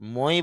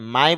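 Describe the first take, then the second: First: The vowel is said like 'oi'. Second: The vowel is said like 'ai'. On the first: The speaker calls it wrong. "মই বলতে পারতেন" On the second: The speaker calls it right. "মাই বলতে পারতেন"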